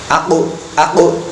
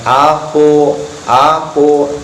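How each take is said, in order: First: The final sound's echo is quick and short. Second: The final sound's echo is drawn out slowly. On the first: The speaker calls it right. "pantulannya ketika berharokat sukun harus cepat" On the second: The speaker calls it wrong. "jangan aku aku, tapi harus cepat"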